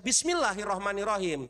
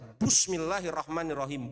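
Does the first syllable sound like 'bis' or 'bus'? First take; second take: bis; bus. First: The first syllable has an i vowel, 'bis'. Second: The first syllable has a u vowel, 'bus'. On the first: The speaker calls it right. "tidak dia baca" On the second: The speaker calls it wrong. "bus. ... itu lahan jali"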